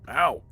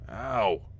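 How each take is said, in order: First: It is said loudly. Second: It is said quietly.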